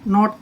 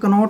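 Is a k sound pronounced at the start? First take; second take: no; yes. First: The word starts without a k sound. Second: The word starts with a k sound. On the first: The speaker calls it right. "के silent है" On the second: The speaker calls it wrong. "ये कनोट नहीं है"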